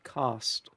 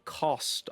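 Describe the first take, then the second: First: The vowel sounds like the a in cast. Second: The vowel sounds like the o in cost. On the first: "I would say cast. It's my accent" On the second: "I wouldn't say cost"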